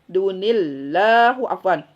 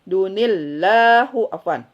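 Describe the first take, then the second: The two takes are said the same way.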